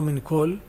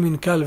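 First: The second word has an 'o' vowel. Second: The second word has an 'a' vowel. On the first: The speaker calls it wrong. "ולא מין קול" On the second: The speaker calls it right. "למה אומרים מין קל"

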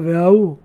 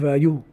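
First: The middle y sound is dropped. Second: The middle y sound is clearly stressed. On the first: The speaker calls it wrong. "ולא להשתמע והאו" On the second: The speaker calls it right. "ידגיש יוד"

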